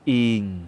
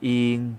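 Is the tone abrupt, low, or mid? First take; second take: low; mid. First: The syllable is said on a low tone. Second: The syllable is said on a level mid tone. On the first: "เสียงวรรณยุกต์เอกเป็นเสียงต่ำนะครับ" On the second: "เสียงสามัญ"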